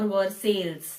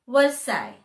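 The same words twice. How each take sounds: First: An L sound is heard near the end. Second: No L sound is heard near the end. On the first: The speaker calls it wrong. "that is how we will pronounce if we see the spelling" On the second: The speaker calls it right. "L E S all disappears"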